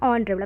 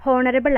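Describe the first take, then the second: First: ഓണറബിൾ with a silent h, starting on o; correct pronunciation. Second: ഹോണറബിൾ with the h sounded; wrong pronunciation. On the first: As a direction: begin ഓണറബിൾ straight on the vowel o. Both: Shown as a demonstration. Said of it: "ഹോണറബിൾ അല്ല".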